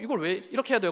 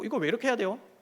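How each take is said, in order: First: The question sounds accusing and critical. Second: The question sounds sincerely curious and innocent. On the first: The listener hears it as an attack on the work. "이렇게 들려요" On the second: The asker simply wants to understand the reason. "너무 순수하게 내가 아, 이거 정말 왜 해야 되네 너무 궁금해서 물어본 건데"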